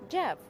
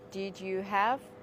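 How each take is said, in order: First: The words are said fast and run together. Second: The words are said slowly and separately. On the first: The speaker calls it right. "Speak fast. Say" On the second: The speaker calls it wrong. "Don't say"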